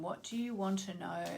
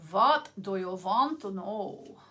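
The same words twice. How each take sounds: First: Said in the usual way. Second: Put-on slow playful German accent, w turned to v; mock German accent asking the question; fun German accent. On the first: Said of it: "make fun accents like that". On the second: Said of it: "a fun German accent".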